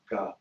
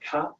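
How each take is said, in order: First: The syllable is said deepest and lowest. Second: The syllable is said high in the mouth. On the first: "and deeper" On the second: "up here"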